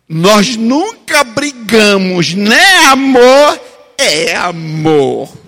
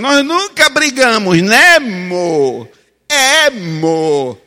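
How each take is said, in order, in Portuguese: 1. Não é falado com sotaque paulista. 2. É falado com sotaque paulista.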